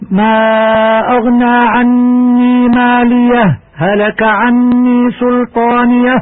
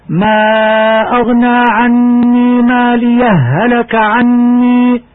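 First: ماليه هلك run together without a pause, slow chant; merging at ماليه هلك. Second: ماليه chanted, then a short break before هلك; pause on ماليه. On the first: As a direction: merge ماليه into هلك in one flow. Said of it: "والإدغام". (إدغام ماليه في هلك بلا سكتة) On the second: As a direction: show the sakt on ماليه in slow chant. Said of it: "والسكت". (سكتة على ماليه في ترتيل بطيء) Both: Shown as a demonstration.

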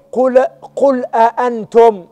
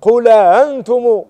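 First: أأنتم with both hamzas fully sounded, slow; full hamza. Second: أأنتم with the second hamza eased into a glide; softened hamza. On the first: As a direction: say أأنتم as a-antum, two clear glottal stops. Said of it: "على قراءة تحقيق الهمز". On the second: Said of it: "على تسهيل". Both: Shown as a demonstration.

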